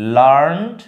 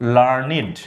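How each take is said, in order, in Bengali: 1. এটা এক শব্দাংশ, শেষে সাধারণ -nd। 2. এটা দুই শব্দাংশ, শেষে -nid। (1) "আর যখন ভার্ব হয় তখন লার্ন হয়" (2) "লার্নিডটা মেইনলি উচ্চারণ হয় যখন, তখন সেটাকে আমরা অ্যাডজেক্টিভ হিসাবে পাই"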